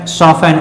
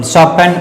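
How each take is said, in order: The two takes are said the same way.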